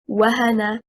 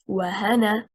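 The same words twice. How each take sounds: First: The stress is on the first syllable. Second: The stress is on the second syllable. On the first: It is one word, a verb meaning to weaken. The speaker calls it right. "The correct performance is wahana" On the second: It becomes two words, 'and' plus a person's name. The speaker calls it wrong. "and not wahana"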